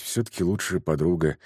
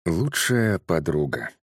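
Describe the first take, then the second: First: Said in the usual way. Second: Медленно, с весом, как название; объявить название рассказа; заголовок. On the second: A narrator's reading. (медленное чтение заголовка)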